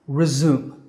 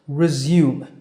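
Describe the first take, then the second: First: It is said with an American accent. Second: It is said with a British accent. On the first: "Now that's the American pronunciation" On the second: "The British pronunciation is slightly different"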